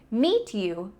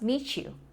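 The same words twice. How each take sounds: First: A plain T is followed by a Y sound. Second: The T and Y merge into a CH sound.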